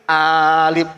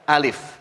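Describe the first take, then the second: First: The vowel is stretched out long. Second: The vowel is kept short. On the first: The speaker calls it wrong. "Itu kreatif karena enggak ada tanda baca" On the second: The speaker calls it right. "enggak usah pakai panjang"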